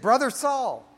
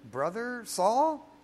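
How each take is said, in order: First: It is said plainly, as a statement. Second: It is said hesitantly, like Ananias unsure.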